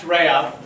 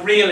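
First: It is pronounced the Brazilian Portuguese way. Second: It is pronounced the English way, like 'reel'. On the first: "that's the Brazilian pronunciation" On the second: "it's spelled like real in English"

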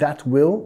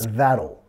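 First: It is said as two full separate words. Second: It is said as one contracted syllable group. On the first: The speaker calls it wrong. "no van a decir that will" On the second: The speaker calls it right. "van a decir that'll"

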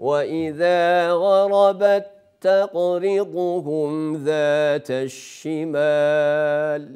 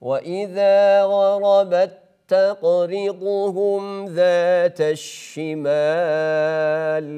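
The two takes are said the same way.

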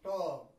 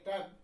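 First: The vowel sounds like a short rounded o. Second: The vowel sounds like a short open a. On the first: "a British man ... will stylishly pronounce as though there is O sound" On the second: "When we pronounce as though there is A sound"

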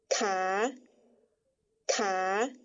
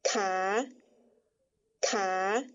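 First: The syllable is said on a rising tone. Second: The same.

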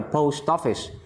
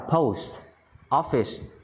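First: The final t links into the next word. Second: The two words are said separately. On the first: The speaker calls it right. "đọc nối là post office" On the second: The speaker calls it wrong. "bình thường đọc là post office"

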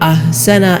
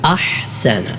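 First: The second consonant is a plain breathy h. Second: The second consonant is a tight throaty h. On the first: The speaker calls it wrong. "പലരും അഹ്സന എന്ന് ഹാ ആയി ഓതാറുണ്ട്" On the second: The speaker calls it right. "ഹാ ആയി തന്നെ മൊഴിയണം"

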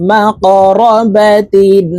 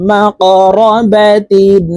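Both takes have the same delivery.

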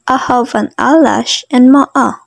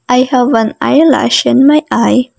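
First: It is said in a Southern American accent. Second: It is said in a general American accent.

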